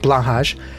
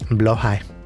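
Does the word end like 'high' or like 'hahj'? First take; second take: hahj; high. First: The word ends with a 'hahj' sound. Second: The word ends with a 'high' sound. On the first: The speaker calls it wrong. "not blahaj" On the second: The speaker calls it right. "is the correct way to say blow high"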